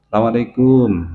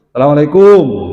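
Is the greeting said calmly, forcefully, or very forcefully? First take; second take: calmly; very forcefully. First: The greeting is said calmly and gently. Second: The greeting is said very forcefully, vowel distorted.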